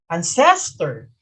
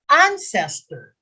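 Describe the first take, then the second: First: The stress is on the second syllable. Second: The stress is on the first syllable. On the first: The speaker calls it wrong. "not ancestor" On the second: The speaker calls it right. "First syllable. So you read it ancestor"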